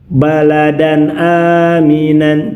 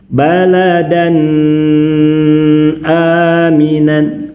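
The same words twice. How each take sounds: First: The nasal sound is released too quickly. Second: The nasal sound is held far too long. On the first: "Contoh terlalu cepat" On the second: "Terlalu lama ditahan"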